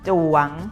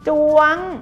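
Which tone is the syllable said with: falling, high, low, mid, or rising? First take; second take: rising; high. First: The syllable is said on a rising tone. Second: The syllable is said on a high tone.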